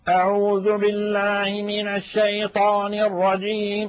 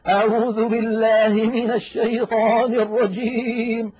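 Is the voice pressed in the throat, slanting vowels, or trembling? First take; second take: pressed throat; trembling. First: The voice is pressed hard in the throat. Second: The voice shakes and trembles throughout. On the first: The reciter is straining with forced effort. "تجد بأن المتكلم يضغط على أقصى حلقه" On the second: The reciter fakes being emotionally moved. "جعلوا الصوت كأنه يهتز ويضطرب ويرتعد"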